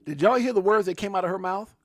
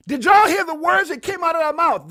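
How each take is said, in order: First: Raised, louder incredulous question; can you believe this; excited disbelief. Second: High, much louder disbelieving yell; incredulous shout. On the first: Repeats clip words to chat. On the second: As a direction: shout it at the whole chat. Repeats louder in shock. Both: Real, not acted.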